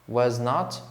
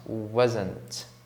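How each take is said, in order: First: Two full separate words are said. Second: The words are squeezed into one contraction. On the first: "was e not" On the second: "tem uma contração, que é wasn't"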